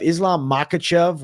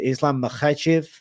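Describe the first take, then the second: First: Makhachev as MAH-kuh-chev; Anglicized Makhachev with a plain k; American pronunciation. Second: Makhachev as muh-KHECH-iv; throaty kh in Makhachev, stress on the middle syllable; foreign pronunciation. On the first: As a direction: say Makhachev American-style, hard k, stress up front. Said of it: "the way the Americans say it". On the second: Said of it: "more the foreign way". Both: Shown as a demonstration.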